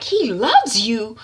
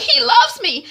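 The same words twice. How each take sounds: First: Slow, drawn-out mocking question; scornful echo. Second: High, loud lovelorn whine; pleading protest. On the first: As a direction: throw the words back in disbelief. Mother mocks daughter's words. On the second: Retold or imitated. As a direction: plead it to an angry mother. Daughter pleads with mother.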